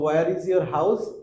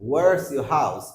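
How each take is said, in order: First: Both words are said in full, separately. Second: The words are squeezed into one contracted word. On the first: The speaker calls it wrong. "এরকম না বলে" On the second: The speaker calls it right.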